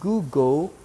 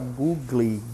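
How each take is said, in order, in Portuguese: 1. A palavra termina com um som de L, como em table. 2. A palavra termina com uma vogal ee extra. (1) "É Google e a pronúncia ... é semelhante a table" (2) "Você vê muitas pessoas falar googly"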